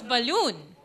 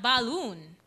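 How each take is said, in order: First: Balloon as "buh-LOON"; weak "buh", weight on "loon"; reduced vowel in balloon. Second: Balloon with a full "bah" first syllable; open, unreduced "a" in balloon; wrong vowel in balloon. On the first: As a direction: swallow the first vowel of balloon. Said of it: "it's balloon". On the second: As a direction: say balloon as "ba-loon". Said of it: "It's not balloon". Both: Shown as a demonstration.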